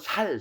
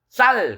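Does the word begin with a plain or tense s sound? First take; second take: plain; tense. First: The word starts with a plain s sound. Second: The word starts with a tense s sound.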